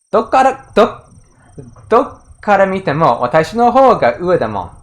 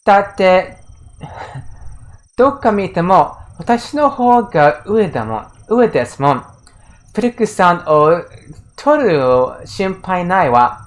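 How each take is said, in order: First: Ruder smug quote. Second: Put-on a light smug taunting girl's voice; smug rival girl. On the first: Retold or imitated. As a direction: sneer it like a rude rival girl. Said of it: "it's, like, a little ruder". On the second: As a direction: purr it like a haughty rival who knows she wins. Reading the rival girl's smug line.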